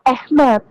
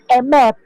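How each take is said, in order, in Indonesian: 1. Kata ini diawali dengan bunyi 'ah' yang terbuka. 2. Kata ini diawali dengan bunyi 'e' yang pendek. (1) "Itu cara bacanya, itu Ahmed" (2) "Bukan emet"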